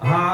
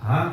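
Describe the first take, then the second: First: The syllable is said on a high pitch. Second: The syllable is said on a low pitch. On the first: "ఊర్ధ్వం అన్నమాట" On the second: "కిందికి అనొచ్చు"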